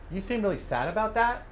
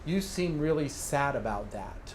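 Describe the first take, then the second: First: The voice goes up at the end. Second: The voice goes down at the end. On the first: It becomes a closed question. The speaker calls it wrong. "If you simply inflect upward at the end" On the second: It is a statement reflecting the feeling. The speaker calls it right. "that is a decent reflection"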